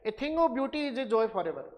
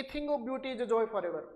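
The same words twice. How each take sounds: First: Very slow, measured reading of "A thing of beauty is a joy forever"; teacher reciting Keats to class; poem recital. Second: Slow recital of "A thing of beauty is a joy forever"; teacher quoting Keats; poem recital. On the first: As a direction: recite the Keats line slowly, word by word. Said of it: "John Keats की poem है". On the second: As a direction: read the Keats line slowly like a poem. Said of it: "जैसे यहाँ पे देखेंगे". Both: Shown as a demonstration.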